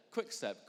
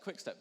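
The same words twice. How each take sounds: First: Said in the usual way. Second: "quick step" said again higher, lightly mocking; higher mock repeat. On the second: Shown as a demonstration.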